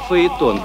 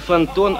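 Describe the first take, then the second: First: The word has two vowels side by side. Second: The word has an n sound and no vowel pair. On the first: The speaker calls it right. "а фаэтон" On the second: The speaker calls it wrong. "не фантон"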